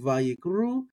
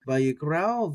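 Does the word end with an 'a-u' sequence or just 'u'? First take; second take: u; a-u. First: The word ends in a plain u sound. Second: The word ends in a separate a-u sequence. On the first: The aleph is treated as silent. "Vayikru is how some people will say it. They'll ignore the aleph" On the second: The aleph is given its own sound. "I want to get the aleph in there"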